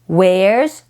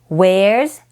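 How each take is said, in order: The two takes are said the same way.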